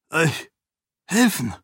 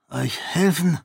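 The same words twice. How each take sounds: First: Stockend, mit Pause zwischen „Euch“ und „helfen?“, deutlich höher; „Euch“ … „helfen?“ ungläubig zerdehnt; fassungslos wiederholt. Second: Eine höhere, zögerliche Rückfrage; ungläubig und vorsichtig nachfragen; zögernd. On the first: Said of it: "wiederholte er". (Ahan wiederholt Sarenes Bitte stockend und fassungslos) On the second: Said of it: "fragte Ahan zögernd". (Ahan fragt Sarene zögernd nach) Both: A narrator's reading.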